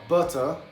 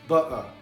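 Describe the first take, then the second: First: The t is pronounced clearly. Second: The t is dropped. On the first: "Um que é carregado com T, que é o R P English" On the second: "Cockney Accent, que eles não pronunciam o T"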